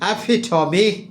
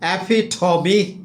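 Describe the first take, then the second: Both takes have the same delivery.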